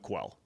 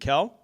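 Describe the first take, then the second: First: The syllable begins with a kw sound. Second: The syllable begins with a plain k sound. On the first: "I sold out on the Q U E. I went Quell" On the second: "Is it Kel?"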